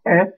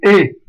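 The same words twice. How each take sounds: First: "E" as open è, mouth more open. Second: "E" as closed é, mouth nearly shut. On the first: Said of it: "va se transformer en E". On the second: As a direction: say "E" tight, like é. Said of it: "Le E va se transformer en E". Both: Shown as a demonstration.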